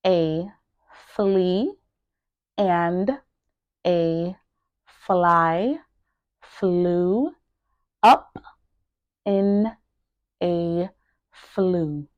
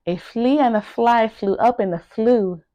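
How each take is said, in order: First: Each word isolated by a pause. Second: Said in the usual way. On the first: Shown as a demonstration. Teacher drilling each word for learners to repeat, word by word. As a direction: say one word, pause, then the next. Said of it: "make sure that you are pronouncing each word". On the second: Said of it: "pronouncing each word".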